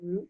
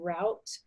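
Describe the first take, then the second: First: The vowel rhymes with boot. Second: The vowel rhymes with out. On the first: "some people will say root" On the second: "I say the word route"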